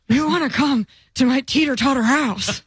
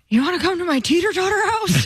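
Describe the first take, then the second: First: It is said at a slower pace. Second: It is said at a faster pace.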